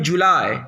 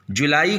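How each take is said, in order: First: जुलाई ending in a glide, "ju-LAI"; English pronunciation. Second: जुलाई ending in a separate "ee", "ju-la-ee"; Hindi pronunciation. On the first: Teacher answers how it is said in English, English pronunciation. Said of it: "कैसे बोलेंगे English में". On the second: Teacher asks for the English of the Hindi word, Hindi pronunciation. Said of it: "जुलाई को कैसे बोलेंगे English में". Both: Shown as a demonstration.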